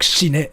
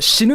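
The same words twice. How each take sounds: First: Shine said as shee-neh with a final e; wrong pronunciation. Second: Shinu said ending in u, higher and louder; right pronunciation. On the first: Showing viewers the wrong ending, shine with an e. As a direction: end it on an e sound: shine. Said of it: "you can't say it like". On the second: Showing viewers the correct word, shinu with u. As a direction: end it on u: shinu. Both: Shown as a demonstration.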